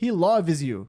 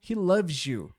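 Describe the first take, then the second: First: It is said in a Brazilian accent. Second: Loves and you join with a j sound. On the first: "se for um brasileiro falando" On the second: "Em alguns sotaques, ... com o som de j, emendando aqui"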